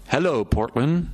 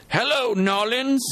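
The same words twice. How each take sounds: First: Lightly called-out greeting, little extra volume; mild mock yell. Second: Put-on high, drawn-out Creole-accented call. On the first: Boy greets a city from the hilltop, mild mock yell. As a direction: call it out with a restrained yell. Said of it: "alternately yelling". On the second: Boy hails New Orleans from the hilltop, mock Creole accent. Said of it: "in his best Creole accent". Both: A narrator's reading.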